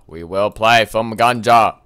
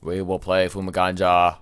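First: Louder, punching the word play; proclaiming. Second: Said in the usual way. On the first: Acted. Gamer announcing the game to viewers, loud proclamation. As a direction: announce it like a herald.

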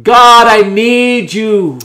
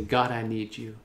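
First: Loud, slow, drawn-out plea; cried out in faith. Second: Soft, low, unforced plea; gentle surrender. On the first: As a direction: call it out to God with full conviction. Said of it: "Say it with faith". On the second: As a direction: say it softly as a quiet surrender. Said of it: "just surrender your heart and say". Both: Shown as a demonstration.

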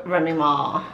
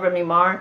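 First: "Remy Ma" with an open "ah" ending. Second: "Remy Ma" ending in an R; R added at end. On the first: Shown as a demonstration. Fan corrects the star's name, "Ma" without an R. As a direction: drop the R, "Ma" as "mah". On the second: Real, not acted. Fan names the star she loves, R sounded on "Ma". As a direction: say "Ma" as "Mar" in "Remy Ma". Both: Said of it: "There's no R in there".

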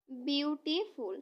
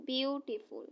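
First: বিউটিফুল drawn out slowly as বিউটি-ফুল; slow syllable split. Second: Said in the usual way. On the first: Shown as a demonstration. Teacher to students, slowly splitting বিউটিফুল into syllables. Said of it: "উচ্চারণ করি syllable অনুযায়ী". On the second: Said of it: "এখানে যদি আমরা উচ্চারণ করি syllable অনুযায়ী".

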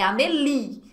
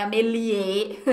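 First: "Amélie" ending on a clear stressed LI; pronúncia correta. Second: "Amélie" with an added final é, a-me-li-É; pronúncia errada. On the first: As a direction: finish "Amélie" on a long i. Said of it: "é Amélie". ("Amélie" terminando em li tônico) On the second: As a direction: tack an extra é onto "Amélie". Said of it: "não é Amélie". ("Amélie" dito errado, como ameliê) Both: Shown as a demonstration.

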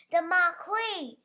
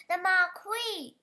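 First: Loud, slow yell of alarm. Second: Higher, louder yell of alarm. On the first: Event manager yelling about the marquee, loud alarm. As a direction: shout it across the grounds. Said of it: "yelled the event manager". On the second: Farmer yelling about the falling marquee, loud panic. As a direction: bellow it in panic. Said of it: "yelled the farmer". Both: A narrator's reading.

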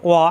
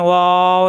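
First: ওয়া as one brief syllable; short, no delay. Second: ওয়াও with its vowel held long; drawn-out letter name. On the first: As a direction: say ওয়া without holding the vowel. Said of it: "কোনো দেরি করা যাবে না". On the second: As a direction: stretch ওয়াও steadily. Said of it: "এখানে কিন্তু টান দেওয়া যায়". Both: Shown as a demonstration.

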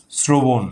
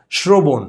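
First: শ্রবণ as "srobon", hissing s; s before r. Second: শ্রবণ as "shrobon"; wrong sh before r. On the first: Teacher shows the r-cluster rule, শ্রবণ with dental s. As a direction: start শ্রবণ with a sharp s, not sh. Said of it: "তখন কিন্তু স". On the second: Teacher shows the mistaken form, শ্রবণ with sh. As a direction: open শ্রবণ with sh instead of s. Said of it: "এভাবে বলি না". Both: Shown as a demonstration.

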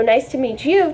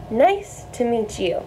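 First: Said in the usual way. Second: Nice to meet you said slowly and clearly, a little softer; slow, careful model phrase; slow teaching demo. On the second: Shown as a demonstration. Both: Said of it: "teaching you guys how to say".

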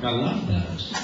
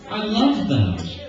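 First: Said in the usual way. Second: Mock polite gushing. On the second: Filter on, polite shoe praise.

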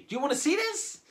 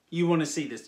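First: High-pitched, teasing question; rousing the audience. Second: Said in the usual way. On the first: Acted. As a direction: ask it high to whip up the crowd. Asks again after pretending not to hear.

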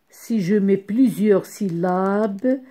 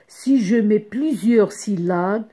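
The two takes are said the same way.

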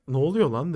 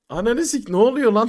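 First: Said in the usual way. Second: Loud, stunned cursing burst; shocked shout. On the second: Retold or imitated. To his friends, realising the girl is real, shocked loud cursing. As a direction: blurt it out in loud disbelief.

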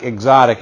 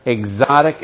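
First: Exotic said with a firm falling tune; firm falling confirmation. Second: Exotic said with a rising, questioning tune; questioning rise. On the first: Dealer answering himself with a firm falling tune. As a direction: land exotic down hard like a verdict. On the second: Dealer teasing the car's label with a rising tune. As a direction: let exotic lift up at the end like a question. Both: Shown as a demonstration.

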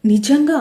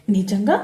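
First: నిజంగా said louder and higher, emphatic; firm assurance. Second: నిజంగా asked with a doubtful rising tone. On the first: Sravani assures her little sister, emphatic. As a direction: insist on it, నిజంగా like a promise. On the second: Brinda doubts her sister's chocolate promise, suspicious. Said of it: "అనుమానంగా అక్క వైపు చూస్తూ". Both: A narrator's reading.

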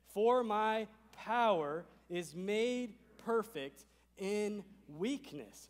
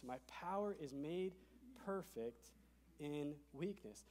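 First: Drawn-out, louder, higher scripture line; slow emphatic reading. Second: Softer, reflective echo of the verse; soft repeat. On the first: Pastor reading the key verse with the room, slow and loud. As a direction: lean on every word slowly. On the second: Pastor echoing the verse to the room, softly. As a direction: let it settle quietly. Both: Shown as a demonstration. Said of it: "Now, here it is".

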